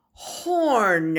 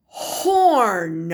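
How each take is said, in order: First: Horn whispered with no voice. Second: Said in the usual way. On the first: Shown as a demonstration. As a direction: breathe the word Horn.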